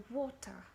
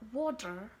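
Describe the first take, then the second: First: Water with a clear T; British-style water, crisp T in the middle; British pronunciation. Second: Water with the T softened towards D; American-style water, D-like T; American pronunciation. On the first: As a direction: say water as "waw-tah". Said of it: "British say water". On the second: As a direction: say water as "wah-der". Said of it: "It turns into combination of T". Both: Shown as a demonstration.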